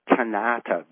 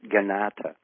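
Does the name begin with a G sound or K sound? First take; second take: K sound; G sound. First: The name begins with a hard K sound. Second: The name begins with a soft G sound. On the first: The speaker calls it wrong. "I was pronouncing it Kanata because of the K" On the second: The speaker calls it right. "a soft K or a G"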